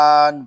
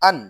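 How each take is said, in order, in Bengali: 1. অক্ষরটি ধীরে ও লম্বা করে টেনে বলা হয়। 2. অক্ষরটি দ্রুত ও ছোট করে বলা হয়। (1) "তাহলে এটা ভুল হবে" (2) "তাড়াতাড়ি পড়তে হবে"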